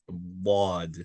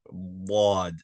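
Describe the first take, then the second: Both takes have the same delivery.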